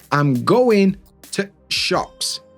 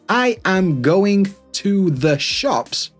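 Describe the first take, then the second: First: The word 'the' is reduced to a glottal stop. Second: The word 'the' is pronounced in full.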